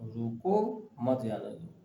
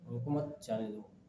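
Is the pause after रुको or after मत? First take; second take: after रुको; after मत. First: There is a pause right after रुको. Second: There is a pause right after मत.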